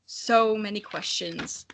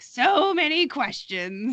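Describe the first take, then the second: First: Lightly voiced slow mutter of the dragon; read dragon line. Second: Slow, higher mock dad brushing off a question. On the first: Narrator reads the dragon's line, slow and lightly muttered. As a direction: let it trail off as the weary dragon. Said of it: "the figure of the dragon muttered". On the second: Listener mimics the dragon as a dismissive dad, slow and mocking. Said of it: "Such a dad move".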